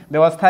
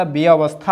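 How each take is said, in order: First: व्यवस्था run together quickly as "vyavastha"; wrong form. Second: व्यवस्था drawn out slowly as "bya-avastha"; correct form. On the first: Teacher showing students the wrong word, व्यवस्था said as compact "vyavastha". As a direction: say व्यवस्था with a compact "vya" opening. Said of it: "व्यवस्था नहीं होता". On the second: Teacher giving students the correct word, व्यवस्था slowly split as "bya-avastha". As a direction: open व्यवस्था into "bi-a-vastha", slowly. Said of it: "व्यवस्था होता है". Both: Shown as a demonstration.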